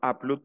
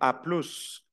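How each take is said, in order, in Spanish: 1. La s final de plus es muda. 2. La s final de plus se pronuncia. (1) "Cuando la digo completa, no la menciono" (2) "ahí sí menciono la S final"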